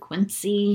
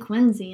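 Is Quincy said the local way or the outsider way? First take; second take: outsider; local. First: Quincy is said the way outsiders say it. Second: Quincy is said the way local residents say it. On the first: The speaker is not from there. The speaker calls it wrong. "instead of Quincy" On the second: The speaker actually lives there. The speaker calls it right. "We say Quincy"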